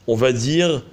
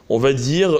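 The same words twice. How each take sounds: Both takes have the same delivery.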